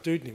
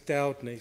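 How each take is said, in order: First: The first vowel sounds like 'uh'. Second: The first vowel sounds like 'ow'. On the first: This is how the speaker says the name. "you wouldn't be calling yourself Dudney" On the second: This is how relatives in Devon say the name. "With you it's Dowdney"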